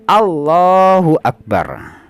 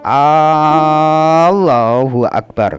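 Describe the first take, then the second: First: The first vowel of Allah is kept short. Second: The first vowel of Allah is drawn out long. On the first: It states that God is the greatest. The speaker calls it right. "harus pendek" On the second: It turns the phrase into a question. The speaker calls it wrong. "memanjangkan hamzahnya lafadz Allah"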